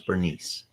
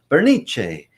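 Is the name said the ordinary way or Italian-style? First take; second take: ordinary; Italian-style. First: The name is said the ordinary English way. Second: The name is said with an Italian-style pronunciation.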